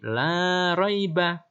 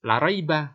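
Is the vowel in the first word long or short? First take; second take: long; short. First: The vowel in "la" is held long. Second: The vowel in "la" is cut short. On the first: There is no doubt in it. The speaker calls it right. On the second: There is surely doubt in it. The speaker calls it wrong.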